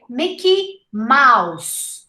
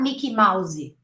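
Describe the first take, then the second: First: It ends cleanly on the final consonant. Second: An extra vowel is added after the final consonant. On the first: The speaker calls it right. "So we say Mickey Mouse" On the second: The speaker calls it wrong. "not Mickey Mousey"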